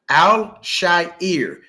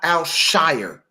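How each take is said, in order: First: The surname's vowel sounds like in 'hair'. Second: The surname's vowel sounds like in 'fire'. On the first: The speaker calls it right. "that is his name" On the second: The speaker calls it wrong. "not Al Shire. Okay, it's not S H I R E"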